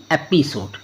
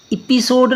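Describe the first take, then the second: First: एपिसोड said with a short e at the start, like episode; एपिसोड, opening vowel as e; correct reading. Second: एपिसोड said with a long ee sound at the start, like ipisode; एपिसोड, opening vowel as ee; wrong reading. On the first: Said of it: "क्योंकि ई के बाद P है". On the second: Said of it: "एपिसोड नहीं". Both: Shown as a demonstration.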